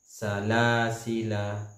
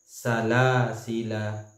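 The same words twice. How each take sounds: No difference in how they are said.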